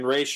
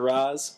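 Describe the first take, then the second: First: The name ends with an sh sound. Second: The name ends with a z sound. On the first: The speaker calls it right. "It's Raish" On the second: The speaker calls it wrong. "I think I just said Raz a little while ago. Fuck me"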